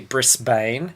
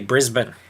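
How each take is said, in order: First: The last syllable is a full 'bane'. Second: The last syllable is a short 'bin'. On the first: This is how overseas visitors say it. The speaker calls it wrong. "we here don't say Brisbane, which is how it is spelled" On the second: This is how locals say it. The speaker calls it right. "We say Brisbane"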